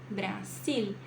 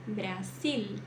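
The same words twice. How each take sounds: The two takes are said the same way.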